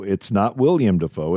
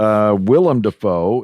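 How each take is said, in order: First: William said WIL-yum, with a y sound; wrong pronunciation. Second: Willem Dafoe with Willem said as WIL-em, no y sound; correct pronunciation. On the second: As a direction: say Willem as two syllables, WIL-em. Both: Shown as a demonstration.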